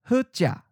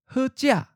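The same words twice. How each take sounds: First: The tone syllable is mid pitch and cut short. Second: The tone syllable is high and cut short. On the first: "Mid stop" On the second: "High stop"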